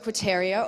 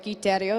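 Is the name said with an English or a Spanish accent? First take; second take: English; Spanish. First: The name is said with an English accent. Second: The name is said with a Spanish accent.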